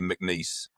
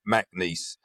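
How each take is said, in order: First: The name is said plainly without a drawl. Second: The name is said with a drawn-out southern drawl. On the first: "technically the correct way to say it would be McNeese" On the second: "the southern drawl in me says it McNeese"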